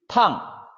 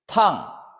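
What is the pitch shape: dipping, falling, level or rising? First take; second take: falling; falling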